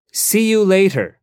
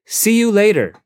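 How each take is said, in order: Both takes have the same delivery.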